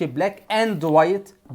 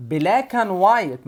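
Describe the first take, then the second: First: "black and white" with and said in full and the d clearly sounded, slow and separate; full careful and. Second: Black and white with the d of and dropped, run together as "black an white"; fast American linking. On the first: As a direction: spell out each word of "black and white", hard d on and. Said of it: "ما تقولش black and white". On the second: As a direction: say "Black and white" as one phrase, the and reduced to "an". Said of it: "نقولها إزاي بسرعة". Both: Shown as a demonstration.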